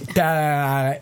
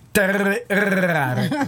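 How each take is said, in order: First: The R sounds are missing or barely pronounced. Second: The R sounds are strongly rolled. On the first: It imitates someone who cannot pronounce R. "è quella che non ha la R" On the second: It is the speaker's own way of saying it. "io invece dico tarare con la R arrotata"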